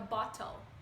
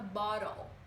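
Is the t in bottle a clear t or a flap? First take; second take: clear t; flap. First: The middle t is a clear t sound. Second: The middle t is a quick r-like flap. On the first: "eles pronunciam como a gente no português, com som de T" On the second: "o T vira um som de R"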